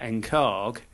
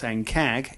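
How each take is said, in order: First: It has a long southern English a vowel. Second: It has a short northern English a vowel.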